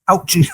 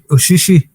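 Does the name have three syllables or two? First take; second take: two; three. First: The name is said with two syllables. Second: The name is said with three syllables. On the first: The speaker calls it wrong. "You called him Ouchie" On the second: The speaker calls it right. "no, it's Ushishi, his name is"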